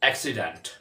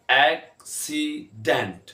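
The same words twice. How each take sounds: First: Said in the usual way. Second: एक्सीडेंट slowly in three separate beats; drawn-out, broken-up एक्सीडेंट; syllable by syllable. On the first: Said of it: "जब इकट्ठे होते हैं". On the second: Shown as a demonstration. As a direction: pause after each syllable of एक्सीडेंट. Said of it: "तीन syllable हैं".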